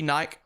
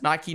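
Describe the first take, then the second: First: Nike said as NYKE; one-syllable Nike. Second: Nike said as NY-kee; two-syllable Nike. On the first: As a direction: rhyme Nike with bike. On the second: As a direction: end Nike on an ee. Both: Shown as a demonstration. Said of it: "Say it the way you want".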